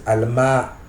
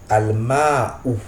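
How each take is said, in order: First: The final vowel is dropped. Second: The final vowel is clearly pronounced. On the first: This is how native speakers normally read it. "Ils ne prononcent pas la dernière voyelle" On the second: This is the full form used while learning. "Je prononce le ou qui est à la fin"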